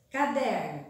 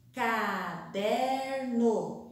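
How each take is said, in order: First: Said in the usual way. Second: "Caderno" very slow, ca-der-no; syllable by syllable. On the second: Shown as a demonstration. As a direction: stretch "Caderno" into three clear beats. ("Caderno" bem devagar, ca-der-no) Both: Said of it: "Vamos separar oralmente".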